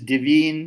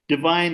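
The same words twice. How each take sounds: First: It is said with the Middle English vowel. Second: It is said with the modern vowel.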